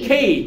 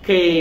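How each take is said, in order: First: The letter is said as an aspirated 'khei'. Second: The letter is said as a plain 'ke'. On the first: The speaker calls it right. "সঠিক উচ্চারণটা বলি খেই" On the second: The speaker calls it wrong. "আমরা আগে বলতাম কি কে"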